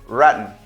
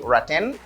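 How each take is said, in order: First: It is said in an American pronunciation. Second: It is said in a non-American pronunciation. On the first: "the American pronunciation is rotten" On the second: "You can say rotten, that is not a problem"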